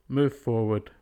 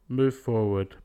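No difference in how they are said.

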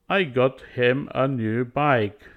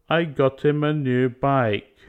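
First: The T in 'got' becomes a glottal stop. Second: The H drops and T links into 'im'. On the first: "we delete it and add a glottal stop" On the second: "we can delete the and move forward the T. It sounds more fluent"

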